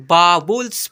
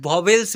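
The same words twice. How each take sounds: First: वावल्स spaced out as "baa-vuls"; corrected "-vuls" in वावल्स. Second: वावेल्स ending in an "e" sound, "vels"; wrong "-vels" in वावेल्स. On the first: Teacher correcting other teachers, वावल्स as a deliberate "baa-vuls". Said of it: "उसे वावल्स पढ़ते हैं". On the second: Teacher quoting other teachers' mistake, वावेल्स with "-vels". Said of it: "नहीं मेरे भाई". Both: Shown as a demonstration.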